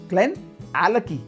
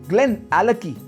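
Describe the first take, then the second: No difference in how they are said.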